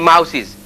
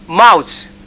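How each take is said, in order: First: The plural is said with an s sound. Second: The plural is said with a th sound. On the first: The speaker calls it wrong. "you say mouses. That's wrong" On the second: The speaker calls it right. "there are a number of people who have mouths"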